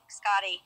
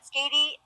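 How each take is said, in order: First: The first vowel sounds like in 'Scott'. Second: The first vowel sounds like in 'skate'. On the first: The speaker calls it right. "it's actually Scotty" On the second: The speaker calls it wrong. "I used to call it Skatey"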